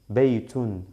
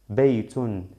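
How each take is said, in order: First: The word ends with a full 'tun' syllable. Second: The same.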